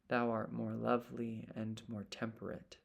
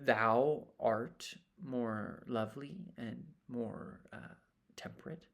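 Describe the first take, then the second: First: It flows evenly with no pause before the last word. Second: It hesitates with a pause before the last word. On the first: The speaker calls it right. "Regular line" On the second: The speaker calls it wrong. "All of that kind of acting and discoveries and, and hesitations"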